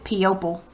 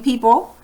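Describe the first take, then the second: First: It is said in an odd, unusual way. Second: It is said in the usual, standard way. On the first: "she pronounced it P-opal" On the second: "excuse me, people"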